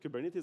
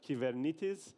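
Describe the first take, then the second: First: The word is said with English pronunciation. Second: The word is said with Greek pronunciation. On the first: The speaker calls it wrong. "people started calling it Kubernetes" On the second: The speaker calls it right. "the right way of saying Kubernetes in Greek is Kybernetes"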